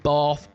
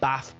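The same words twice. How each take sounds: First: It is said in a Southern English accent. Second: It is said in a Northern English accent.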